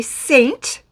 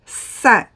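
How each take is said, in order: First: "saint" as in English, said saynt. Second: "Saint" in French, a nasal san with no T. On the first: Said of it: "in English you say saint". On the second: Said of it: "in French you do not say the T". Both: Shown as a demonstration.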